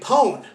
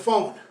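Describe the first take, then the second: First: The word begins with a P sound. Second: The word begins with an F sound. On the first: The speaker calls it wrong. "So what they do is they say pone" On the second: The speaker calls it right. "P H is pronounced like F"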